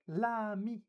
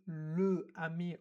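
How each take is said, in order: First: The article's L is joined onto the noun. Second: The article is a separate syllable before the noun. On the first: The speaker calls it right. "we would just say l'ami" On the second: The speaker calls it wrong. "we don't say le ami"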